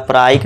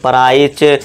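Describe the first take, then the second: First: The word ends with a k sound. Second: The word ends with a ch sound. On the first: "इसे हम प्राइच या प्राइसे या प्राइक नहीं पढ़ेंगे" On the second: "इसे हम प्राइच या प्राइसे या प्राइक नहीं पढ़ेंगे"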